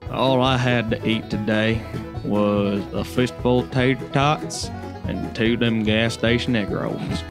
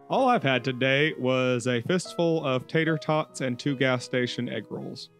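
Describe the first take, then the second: First: It is said in a strong country accent. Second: It is said in the speaker's plain accent.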